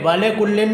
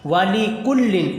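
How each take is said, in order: First: The first word ends with an 'ay' sound. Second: The first word ends with a long 'ee' sound. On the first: The speaker calls it wrong. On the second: The speaker calls it right.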